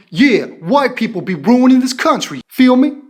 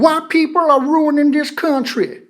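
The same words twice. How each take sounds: First: Demonstrated Black American accent; imitation of a Black American speaker's accent; put-on Black American accent. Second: Mock Southern accent. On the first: Shown as a demonstration. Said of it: "the voice should have been". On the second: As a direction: mimic a bad Southern white-guy voice. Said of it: "she puts on the white guy's southern voice".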